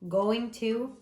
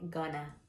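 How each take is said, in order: First: It is said as two full words. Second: It is reduced to one short blended word. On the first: "instead of saying going to" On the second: "we always say gonna"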